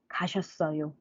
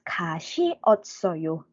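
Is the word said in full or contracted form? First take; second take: contracted; full. First: Two syllables merge, leaving four syllables. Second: Every syllable is said separately, five syllables. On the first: "Shorten it" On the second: "So it becomes"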